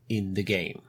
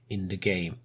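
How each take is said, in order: Both takes have the same delivery.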